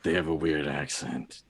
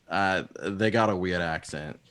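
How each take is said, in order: First: Put-on second try at a talking raven, no Boston accent; lightly voiced raven familiar; Agfa. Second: Put-on lightly Boston-accented raven; a touch of Boston accent. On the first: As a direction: voice the bird's remark without the Boston twang. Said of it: "Try again". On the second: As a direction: slip into a slight Boston accent. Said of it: "Agfa just spoke in the Boston accent".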